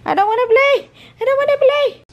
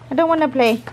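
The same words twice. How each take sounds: First: Squeaky high pretend dog voice; voicing the dog. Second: Said in the usual way. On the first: Mom voicing the dog's refusal in a squeaky high voice.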